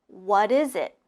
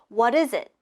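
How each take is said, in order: First: It is said at a normal speed. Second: It is said fast, like one word.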